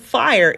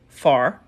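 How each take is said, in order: First: It is said in a standard accent. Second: It is said in a North Louisiana accent.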